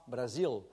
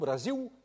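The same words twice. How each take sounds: First: The final L is dark, far back. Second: The final L sounds like a vowel. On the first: "avec un L très en arrière de la bouche" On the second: "mais carrément"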